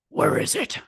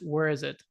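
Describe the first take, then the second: First: It is said in a gruff Batman voice. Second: It is said in a normal speaking voice.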